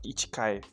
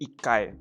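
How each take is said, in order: First: The middle has a full 'chi' syllable. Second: The middle has a held, doubled k sound. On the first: The speaker calls it wrong. "instead of ichikai" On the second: The speaker calls it right. "it'll be ikkai instead of ichikai"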